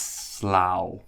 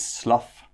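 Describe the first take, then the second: First: The word ends with an 'ow' sound. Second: The word ends with an 'uff' sound. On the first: It is the name of a place. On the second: It is the verb meaning to shed.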